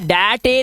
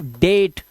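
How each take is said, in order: First: It is said with two syllables. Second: It is said with one syllable. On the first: The speaker calls it wrong. "इसे डटे नहीं पढ़ते या डैटे नहीं पढ़ते" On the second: The speaker calls it right. "इसे पढ़ते हैं सिर्फ डेट"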